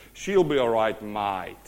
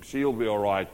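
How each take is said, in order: First: Demonstrated Australian accent, falling away on "mate"; laid-back Aussie delivery. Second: Low, casual Aussie aside; lightly put-on Australian accent. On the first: Shown as a demonstration. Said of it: "let me say it in the Aussie accent". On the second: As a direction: say it with a hint of Aussie. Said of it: "a little bit of Aussie influence in him".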